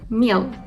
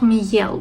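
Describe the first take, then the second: First: A soft m runs straight into the vowel. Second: A separate y-glide follows the m sound. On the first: The speaker calls it right. "but mel" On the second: The speaker calls it wrong. "not miel"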